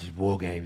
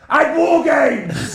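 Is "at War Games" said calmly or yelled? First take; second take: calmly; yelled. First: It is said calmly at normal loudness. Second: It is yelled loudly with high energy. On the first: The speaker calls it wrong. "Where he's like, well" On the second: The speaker calls it right. "he should yell it every time"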